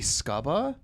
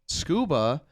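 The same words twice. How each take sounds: First: The U is said like 'uh'. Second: The U is said like 'oo'.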